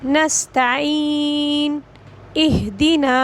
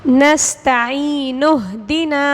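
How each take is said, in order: First: There is a pause between the two words. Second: The two words run together without a pause. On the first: The reader stops before starting the next word. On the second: The reader continues without stopping.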